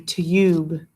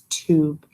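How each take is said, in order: First: The vowel is a 'yoo' sound. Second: The vowel is a plain 'oo' sound. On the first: The speaker calls it wrong. "Doesn't say ube, because it would be tube, but that doesn't sound right" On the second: The speaker calls it right. "it kind of makes that ooh, ooh sound"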